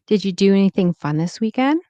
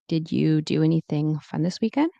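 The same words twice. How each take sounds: First: "Did you" runs together into a quick "didja". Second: "Did you" is said as two separate words.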